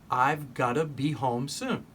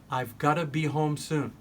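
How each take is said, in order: No difference in how they are said.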